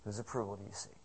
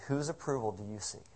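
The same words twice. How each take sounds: First: Softer repeat. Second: Said in the usual way. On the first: Acted. Pastor repeats the question to congregation.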